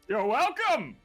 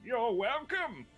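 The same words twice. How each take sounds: First: The line is screamed loudly in a character voice. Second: The line is said calmly in a character voice.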